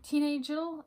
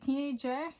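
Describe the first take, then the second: First: The word ends with an L sound. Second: The word ends with an R sound. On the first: The speaker calls it wrong. "like teen angel" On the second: The speaker calls it right. "teenagel is actually teenager"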